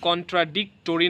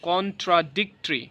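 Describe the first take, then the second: First: The '-to-' syllable is fully pronounced. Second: The '-to-' syllable is dropped. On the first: The speaker calls it wrong. "হিস্টোরি যদি হিস্ট্রি হয়ে যায় তাহলে এখানে কন্ট্রাডিক্টরি না বলে" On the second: The speaker calls it right. "আমরা কন্ট্রাডিক্টরি"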